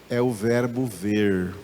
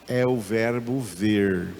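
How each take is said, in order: Both takes have the same delivery.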